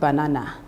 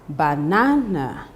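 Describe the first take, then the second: First: The stress is not on the second syllable. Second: The stress is on the second syllable. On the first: The speaker calls it wrong. "not banana" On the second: The speaker calls it right. "the second syllable is stressed in the word banana"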